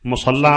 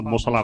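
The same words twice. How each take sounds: First: "ਮੁਸੱਲਾ" as musalla, double l; stressed, geminated l in "ਮੁਸੱਲਾ"; everyday doubled l. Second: "ਮੁਸਲਾ" as musala, single l; short single l in "ਮੁਸਲਾ"; undoubled l, as written. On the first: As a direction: hold the l in "ਮੁਸੱਲਾ". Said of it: "ਮੁਸੱਲਾ ਆਪਾਂ ਬੋਲਦੇ ਹਾਂ ਸਾਰੇ". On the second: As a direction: say "ਮੁਸਲਾ" without holding the l. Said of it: "ਮੁਸਲਾ ਕੋਈ ਨਹੀਂ ਬੋਲਦਾ". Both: Shown as a demonstration.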